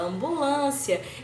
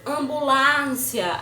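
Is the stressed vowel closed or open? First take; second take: closed; open. First: The stressed vowel is pronounced closed. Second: The stressed vowel is pronounced open. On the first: The speaker calls it right. "a gente fala ambulância" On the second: The speaker calls it wrong. "A gente não fala ambulância"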